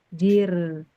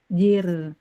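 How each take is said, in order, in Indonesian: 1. Konsonan akhirnya ada di antara tertahan dan mengalir. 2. Konsonan akhirnya ada di antara tertahan dan mengalir.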